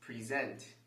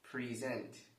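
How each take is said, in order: No difference in how they are said.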